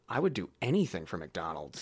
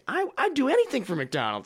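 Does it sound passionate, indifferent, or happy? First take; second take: passionate; happy. First: It sounds passionate and intense. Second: It sounds cheerful and really happy.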